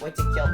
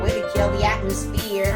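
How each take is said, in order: First: It is said in his normal voice. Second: It is said in an annoying put-on voice.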